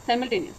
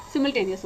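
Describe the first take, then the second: First: साइमल्टेनियस with a 'sigh' opening; long-i pronunciation. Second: सिमल्टेनियस with a short 'sim' opening; short-i pronunciation. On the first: (साइमल्टेनियस में 'साइ' वाला उच्चारण) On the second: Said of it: "सिमल्टेनियस होता है". (सिमल्टेनियस में छोटी इ वाला 'सिम') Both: Shown as a demonstration.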